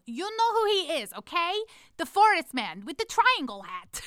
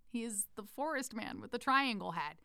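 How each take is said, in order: First: High, loud exasperated outburst; frustrated kid yell. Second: Said in the usual way. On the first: Retold or imitated. Fed-up camp kid explaining the pendant figure, frustrated yell. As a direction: yell it like a fed-up child, drawing out the last words. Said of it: "finally got frustrated and yelled".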